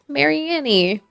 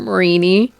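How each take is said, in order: First: It sounds like Mary plus Annie. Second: It sounds like marine with an ending. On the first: "I pronounced that Pokemon Mary Annie" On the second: "it should be Marini, like marine, like the water"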